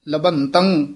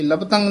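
First: Both syllables carry a nasal sound. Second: The first syllable has no nasal sound. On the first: The speaker calls it right. "ਕਿਉਂਕਿ ਭੱਬੇ ਉੱਤੇ ਵੀ ਟਿੱਪੀ ਹੈ, ਤੱਤੇ ਤੇ ਵੀ" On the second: The speaker calls it wrong. "ਨਹੀਂ ਕਹਿਣਾ"

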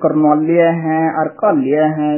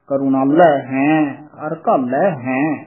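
First: Each word ends with a 'liya' sound. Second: Each word ends with a 'lai' sound. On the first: The speaker calls it wrong. "ਕਈ ਕਰਨਾਲਿਆ ਹੈ ਅਰਕਾਲਿਆ ਹੈ ਇਸ ਤਰ੍ਹਾਂ ਬੋਲਦੇ ਹਨ। ਇਸ ਤਰ੍ਹਾਂ ਨਹੀਂ ਬੋਲਣਾ।" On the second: The speaker calls it right. "ਲੱਲੇ ਦੇ ਦਲਾਵਾਂ ਲਾ ਕੇ ਸੰਪਰਦਾ ਦੇ ਵਿਚ ਉਚਾਰਨ ਕਰਾਇਆ ਜਾਂਦਾ ਹੈ।"

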